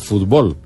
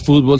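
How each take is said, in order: First: The stress is on the last syllable. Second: The stress is on the first syllable. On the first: This is the form the protesting countries such as Mexico wanted. The speaker calls it right. "sino fútbol" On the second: This is the form the dictionary first adopted. The speaker calls it wrong. "no es fútbol"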